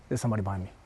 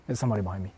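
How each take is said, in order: Both takes have the same delivery.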